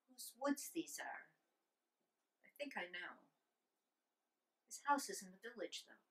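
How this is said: It sounds like thinking aloud to a companion.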